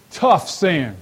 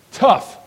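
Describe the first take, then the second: First: Said in the usual way. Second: "Tough" punched high and loud; emphatic tough. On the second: Shown as a demonstration. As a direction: hit "Tough" hard and high as one sharp word.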